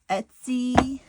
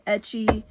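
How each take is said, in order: First: The word sounds like 'Etsy'. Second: The word sounds like 'itchy'.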